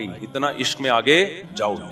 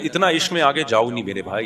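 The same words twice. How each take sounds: First: आगे falling, softer and firmer; firm repeat. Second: इतना rising, pleading with the brother; pleading advice. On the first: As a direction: settle down hard on आगे. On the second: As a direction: lift इतना in gentle appeal. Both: Shown as a demonstration. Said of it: "इतदाल रखो".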